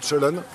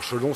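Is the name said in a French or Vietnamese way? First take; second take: Vietnamese; French. First: The name is said with Vietnamese pronunciation. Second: The name is said with French pronunciation. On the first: This is how locals say it. "Ici, ils disent" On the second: This is how French people say it. "c'est la prononciation qu'on- que les Français disent"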